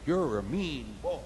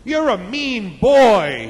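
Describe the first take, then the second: First: Soft, slow echo; distant echo. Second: Loud, high, stretched-out taunt; screamed out. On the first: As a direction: echo it back, quiet and drawn out. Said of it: "about the echo". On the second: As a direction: yell it slowly into the distance. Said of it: "He screamed out". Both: Acted.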